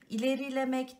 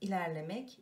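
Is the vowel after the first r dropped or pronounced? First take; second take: pronounced; dropped. First: A vowel is pronounced after the first r. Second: No vowel is pronounced after the first r. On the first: The speaker calls it wrong. "değil" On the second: The speaker calls it right. "i düşmüş"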